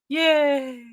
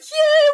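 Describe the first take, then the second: First: It sounds flat, with forced enthusiasm. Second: It sounds genuinely excited and happy.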